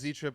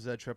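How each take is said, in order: First: The letter is said as 'zee'. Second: The letter is said as 'zed'. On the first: "However you want to say it" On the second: "However you want to say it"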